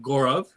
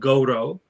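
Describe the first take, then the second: First: The name ends with a clear v sound. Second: The name ends on a vowel, no final v. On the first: This is how people further north say it. "if I row northwards, it turns into" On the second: This is how people in the western region say it. "in the area that I, my family is specifically from, which is Gujarat"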